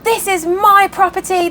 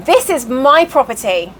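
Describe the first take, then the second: First: High, indignant imitation of a rant; mock ballistic outrage. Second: Measured, firm correction in the usual pitch; firm Southern rebuttal. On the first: Woman ranting at neighbours in the barn, mock outrage. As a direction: claim it in a high, outraged put-on voice. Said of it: "she went ballistic at them". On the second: Retold or imitated. New owner corrects the ranting woman, firm rebuttal. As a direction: imitate calmly standing your ground. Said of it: "You know how they are in the South".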